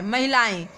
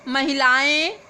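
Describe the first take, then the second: First: महिलाएं with a nasal ending and falling, a bit lower; corrected word. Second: महिलाएं said without the nasal ending, rising; misspelt word read out. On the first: Teacher gives students the correct form, nasal ending. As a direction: end महिलाएं on a nasal e, settled down. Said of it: "इसको आपको शुद्ध करके लिखना है". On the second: Teacher reads the misspelt word to students, rising. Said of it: "महिलाएं लिखा है". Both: Shown as a demonstration.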